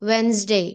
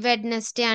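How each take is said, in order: First: The middle d is silent, with two syllables. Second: The middle d is pronounced, with three syllables. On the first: The speaker calls it right. "డి silent ఉంటదండి ఈ word లో" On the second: The speaker calls it wrong. "అందరూ దీన్ని వెడ్నెస్డే వెడ్నెస్డే అంటారండి"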